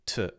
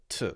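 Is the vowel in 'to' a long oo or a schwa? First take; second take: schwa; schwa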